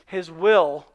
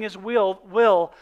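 First: The word sounds like 'will' with a short vowel. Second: The word sounds like 'wheel' with a long vowel. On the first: The speaker calls it right. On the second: The speaker calls it wrong.

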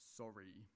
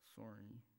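First: It is said angrily. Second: It is mumbled guiltily.

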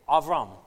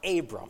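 First: The middle consonant is a v sound. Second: The middle consonant is a b sound. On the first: The speaker calls it right. "the correct pronunciation of Abram is Avram" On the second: The speaker calls it wrong. "It's not Abram"

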